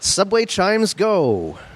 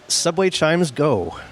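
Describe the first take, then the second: First: It is said with more energy and kick. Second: It is said plainly, with little energy.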